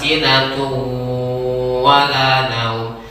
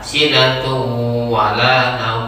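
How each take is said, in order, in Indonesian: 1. Dengung itu ditahan selama tiga ketukan. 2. Dengung itu ditahan selama dua ketukan. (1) "untuk latihan dasar kita buat tiga rakaat" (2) "setidaknya kembali kepada dua rakaat"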